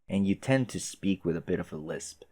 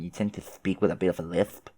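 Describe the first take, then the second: First: The words are spoken through clenched, bared teeth. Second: The words are spoken with a lisp. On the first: "speaking and kind of like sh like baring my teeth" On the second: "Like that? That sounds a little more annoying"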